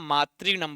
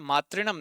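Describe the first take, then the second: First: The ri vowel is held long. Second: The ri vowel is kept short. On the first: The speaker calls it right. "मातृधन ऋणम मातृणम बनता है" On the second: The speaker calls it wrong. "मातृणम नहीं बनता है"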